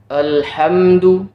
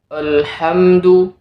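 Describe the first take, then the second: Both takes have the same delivery.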